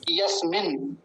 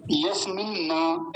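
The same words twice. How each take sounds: First: यस्मिन् with the two न run lightly together; the right way: यस्मिन्, no separate न; यस्मिन् said smoothly as one word; correct pronunciation. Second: यस्मिन् न with the न split off as its own syllable; slow yas-min-na, the incorrect way; wrong pronunciation. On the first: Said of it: "ये बिल्कुल ठीक है". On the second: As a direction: show the mistake: यस्मिन् न, a separate न. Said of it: "ऐसा नहीं बोलेंगे". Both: Shown as a demonstration.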